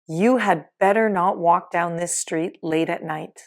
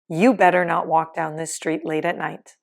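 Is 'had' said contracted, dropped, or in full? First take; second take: full; dropped. First: The word 'had' is said in full. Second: The word 'had' is left out entirely.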